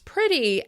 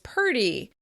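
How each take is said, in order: First: The R comes directly after the P sound. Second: A vowel comes before the R sound.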